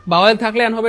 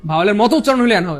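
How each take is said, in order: First: "Bhawal" said louder as the rule to reject; louder, setting up the false version with "Bhawal" punched; wrong rule stated. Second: "মতো" hit hard in "ভাওয়ালের মতো"; stress on correct rule. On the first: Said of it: "এটা পুরোপুরি সত্য". (ভুল নিয়মটা জোর দিয়ে) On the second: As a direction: lean on "মতো" to show the right rule. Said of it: "বরং পাঁচটা ভাওয়ালের মতো উচ্চারণ হইলে এন হবে". ("মতো" শব্দে জোর) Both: Shown as a demonstration.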